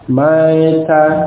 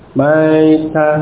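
Both takes have the same delivery.

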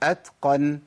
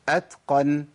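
First: The t is voiceless with audible breath. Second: The t is voiceless with audible breath.

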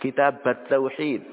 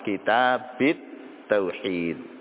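First: The first word ends in an a vowel. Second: The first word ends in an i vowel. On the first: "Boleh juga dibaca fathah" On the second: "Boleh juga dibaca jar, dikasrahkan"

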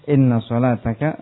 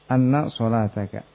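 First: The first word begins with an 'i' vowel. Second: The first word begins with an 'a' vowel. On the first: The clause is a complete sentence giving the reason. "Ada yang membaca apa? Inna salataka" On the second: The clause is a noun phrase governed by an implied 'because of'. "Ada yang membaca apa? Anna salataka"

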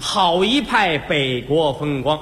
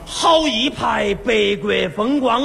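First: It is spoken in standard Mandarin. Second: It is spoken in Sichuan dialect. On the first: "这是普通话。" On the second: "四川话说出来这味儿"

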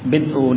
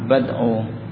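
First: The vowel after b is an i sound. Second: The vowel after b is an a sound. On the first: "Dibaca dengan mengkasrah ba" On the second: "ada yang menyatakan di fathah"

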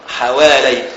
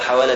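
First: The word ends in an 'ay' sound, dual form. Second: The word ends in a plain long 'a' vowel. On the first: The speaker calls it right. "حوالي بلفظ التثنية" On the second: The speaker calls it wrong. "لا تقل حوالى كما يقولون بعض قراء النشرات الأخبار"

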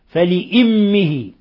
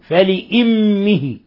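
The two takes are said the same way.

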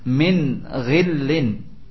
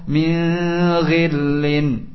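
First: The n is pronounced clearly without nasal hiding. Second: The n is hidden with a lingering nasal sound. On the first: The speaker calls it right. "dibaca dengan jelas pula nunnya" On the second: The speaker calls it wrong. "ada yang baca dengan qiraah ikhfa"

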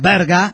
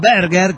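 First: The word ends with an open a sound. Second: The word ends with a pronounced r sound. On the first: The speaker calls it right. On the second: The speaker calls it wrong.

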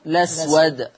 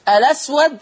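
First: The word starts directly with the L sound. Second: The word starts with a vowel before the L. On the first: "او حذفها" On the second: "اثبات همزة الوصل"

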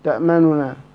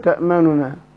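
No difference in how they are said.

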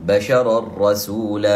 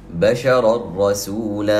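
The two takes are said the same way.

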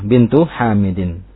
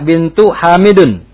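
First: The last word ends in an 'in' sound. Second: The last word ends in an 'un' sound. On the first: The speaker calls it right. "kata yang keduanya itu harus kasroh" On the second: The speaker calls it wrong. "itu bacanya"

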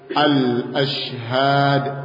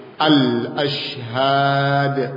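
No difference in how they are said.

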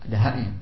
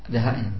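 The two takes are said the same way.

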